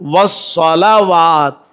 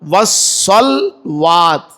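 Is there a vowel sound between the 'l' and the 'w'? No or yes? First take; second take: yes; no. First: A short 'a' vowel follows the 'l' sound. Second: No vowel is heard between the 'l' and 'w'. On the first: The speaker calls it right. "लाम के ऊपर जबर है" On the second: The speaker calls it wrong. "अक्सर लोग पढ़ते हैं वस्सलात या वस्सलवात"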